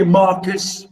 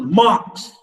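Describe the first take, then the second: First: "Marcus" split into two syllables, mar-cus; wrong two-syllable version. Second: "marks" as one single long sound; one syllable. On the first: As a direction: add a second syllable, saying "Marcus". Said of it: "I didn't say Marcus or Mark". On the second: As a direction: say "marks" in one unbroken beat. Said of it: "one syllable". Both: Shown as a demonstration.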